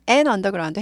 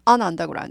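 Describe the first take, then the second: First: The first word sounds like 'an'. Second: The first word sounds like 'on'. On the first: "on이나 an으로 발음할 수 있어요" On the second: "on이나 an으로 발음할 수 있어요"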